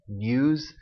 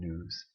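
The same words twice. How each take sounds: First: A 'y' glide follows the n, like 'nyooz'. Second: No glide follows the n, like 'nooz'. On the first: "with a glide as" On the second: "without a glide as"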